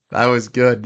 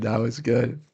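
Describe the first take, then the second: First: Laughing through That was good. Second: Said in the usual way. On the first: Real, not acted. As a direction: say it still chuckling. Laughs at own Giannis joke.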